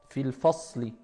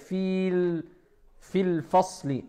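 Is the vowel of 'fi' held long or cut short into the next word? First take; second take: cut short; held long. First: Fi runs straight into al with no long vowel. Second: The long vowel of fi is held before al. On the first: The speaker calls it right. "Fil directement" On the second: The speaker calls it wrong. "On va pas dire fil fil fasli"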